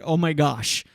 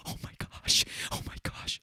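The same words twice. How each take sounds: First: Said in the usual way. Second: Mock excited whisper; whispering camera person. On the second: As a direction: whisper it like a camera operator trying to stay hidden. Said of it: "the camera person's like".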